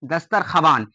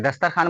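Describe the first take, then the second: First: दस्तरख्वान as "dastar-kha-waan"; as written. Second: दस्तरखान ending in "khaan", no w; as pronounced. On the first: Teacher reads out what is written, w sounded. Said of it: "लिखा क्या गया है?". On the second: Teacher answers how we read it, w left silent. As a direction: drop the w to say दस्तरखान. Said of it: "लेकिन हम लोग क्या पढ़ते हैं?". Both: Shown as a demonstration.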